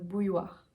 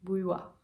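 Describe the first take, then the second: First: The R sound is light and softened. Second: The same.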